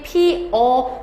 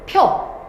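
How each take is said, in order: First: Two vowels are said with a break between them. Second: The vowels merge into one syllable. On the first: "의도적으로 중간에 끊어줘야 되기 때문에" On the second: "피어를 펴 줄였네"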